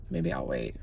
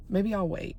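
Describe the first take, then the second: First: "Maybe I'll wait" whispered, no voice. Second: Said in the usual way. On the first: Real, not acted. Vlogger hiding near the police raid, whispering. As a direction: breathe it so nobody hears.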